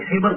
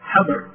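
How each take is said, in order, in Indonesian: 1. Vokal pertamanya bunyi i. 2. Vokal pertamanya bunyi a. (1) "Bisa dibaca hibr" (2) "bisa dibaca habr"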